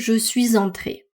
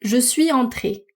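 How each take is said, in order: First: Suis and entré are linked by a z sound. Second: Suis and entré are not linked by a z sound. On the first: This is the fuller pronunciation with optional liaison. "au lieu de" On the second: This is everyday spoken French. "en français parlé de tous les jours, on peut entendre quelque chose comme"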